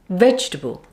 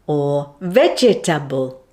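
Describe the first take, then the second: First: Only one syllable gets strong stress. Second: Every syllable gets equal strong stress. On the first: The speaker calls it right. "it should sound like this" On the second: The speaker calls it wrong. "you might end up stressing all the vowels"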